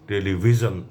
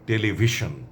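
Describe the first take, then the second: First: It is said with an English-style pronunciation. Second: It is said with a Bengali-style pronunciation. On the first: The speaker calls it wrong. "এমন করে বলার দরকার নেই, বাংলার সঙ্গে খাপ খাবে না" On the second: The speaker calls it right. "আমি এটা বলতে বলছি"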